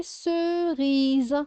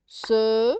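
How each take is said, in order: First: "cerise" high and slowly stretched, unbroken; drawn-out word. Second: "Cerise" as three separated beats, ce, ri, ze; syllable by syllable. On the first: Teacher presenting a word for a child, "cerise" drawn out. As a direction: hold each vowel of "cerise". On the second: Teacher sounding out syllables for a child, "Cerise" broken up. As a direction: break "Cerise" apart with pauses. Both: Shown as a demonstration. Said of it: "de faire les syllabes".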